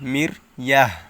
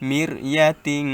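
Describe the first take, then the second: First: The word ends in a soft 'h' sound. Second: The word ends in a nasal 'tin' sound. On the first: The reading stops on this word. "Stop করেন তাহলে তো এখানে হা উচ্চারণ করতে হবে" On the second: The reading continues without stopping. "এভাবে গুণনা করতে হবে"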